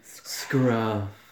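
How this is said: The word is said with a breathy voice.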